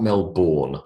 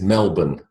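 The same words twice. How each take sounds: First: The second syllable is a full 'bourne'. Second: The second syllable is a reduced 'bun'. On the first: The speaker calls it wrong. "like the Bourne identity" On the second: The speaker calls it right.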